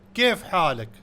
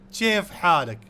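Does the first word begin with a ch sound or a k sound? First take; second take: k; ch. First: The first word begins with a k sound. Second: The first word begins with a ch sound. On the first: This is the common standard form. "In Arabic" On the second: This is how it is said in the Gulf region. "in the U A E and some other country, instead of K, they use ch"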